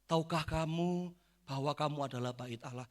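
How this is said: It is said in a soft, gentle tone.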